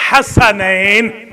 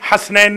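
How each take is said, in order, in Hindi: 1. s ध्वनि के बाद एक छोटा स्वर आता है। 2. s ध्वनि के बाद कोई स्वर नहीं आता। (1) "सीन के ऊपर फतह है" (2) "हसनैन नहीं"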